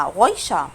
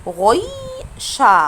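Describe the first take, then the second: First: Said in the usual way. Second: غويشة very slow, long held "oyyy" before "sha"; emphasised diphthong. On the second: Shown as a demonstration. Teacher points out the oy sound, stretched diphthong. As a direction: linger on the middle of غويشة. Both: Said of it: "خدت بالكم من أوي".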